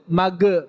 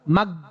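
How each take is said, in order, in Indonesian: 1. Bunyinya diakhiri g yang memantul dengan gema. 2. Bunyinya diakhiri g yang keras dan kuat. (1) "Bahkan dipantulin tuh" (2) "itu G. Kalau G kan kuat"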